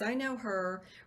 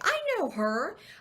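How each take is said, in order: First: It is said in a knowing, disapproving tone. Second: It is said in a warm, approving tone. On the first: The person is remembered badly. The speaker calls it wrong. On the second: The person is remembered fondly. The speaker calls it right. "We want to be memorable in a great way"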